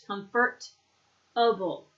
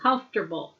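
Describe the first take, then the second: First: "comfortable" very slowly, broken into comfort and able; "comfortable" in full, slow separate syllables; sounded out. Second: "Comfortable" run together as KUMF-ter-bul; squished together. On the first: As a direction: break "comfortable" into its parts for learners. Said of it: "Now it's pronounced comfort". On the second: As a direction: squish "Comfortable" into three syllables. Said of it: "Kind of gets squished together". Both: Shown as a demonstration.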